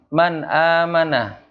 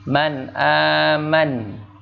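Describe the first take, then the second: First: The last word ends with a final vowel. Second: The last word ends on a consonant. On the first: "Kalau orang kita menyebutnya itu man amana"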